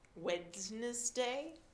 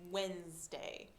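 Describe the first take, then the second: First: The middle D sound is pronounced. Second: The middle D sound is left silent. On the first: The speaker calls it wrong. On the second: The speaker calls it right. "we do not pronounce it. It's just when"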